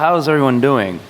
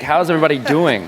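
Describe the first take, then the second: First: It is said with ordinary, lower energy. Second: It is said loudly with high energy.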